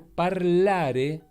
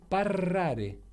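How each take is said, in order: First: The middle consonant is pronounced as an L. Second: The middle consonant is pronounced as an R. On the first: This is the standard Italian form. "que es como se dice hablar en italiano" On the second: This is the southern Italian dialect form. "en el dialecto, digamos, de mis viejos ... dicen parrare"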